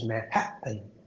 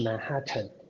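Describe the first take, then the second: First: The middle t is a glottal stop. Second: The middle t is a clear t sound. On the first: The speaker calls it right. "glottal stop ... 喉塞音 ... 是Manhattan" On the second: The speaker calls it wrong. "不是Manhattan"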